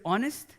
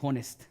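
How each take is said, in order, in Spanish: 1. La h inicial es muda. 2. La h inicial suena como una j. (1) "en lugar de decir honest" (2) "dije honest"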